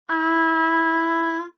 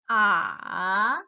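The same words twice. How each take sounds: First: It is said with the first tone. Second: It is said with the third tone. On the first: "The first tone is ah" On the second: "The third tone is ah"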